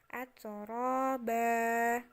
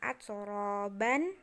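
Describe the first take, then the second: First: The word ends with a long open vowel. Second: The word ends with an n sound. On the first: The speaker calls it right. "tapi jadinya atsoroba" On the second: The speaker calls it wrong. "bukan atsoroban"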